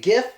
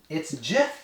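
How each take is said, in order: First: The word begins with a hard G sound. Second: The word begins with a J sound. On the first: The speaker calls it wrong. "this shouldn't be GIF" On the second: The speaker calls it right. "So it's like J I F"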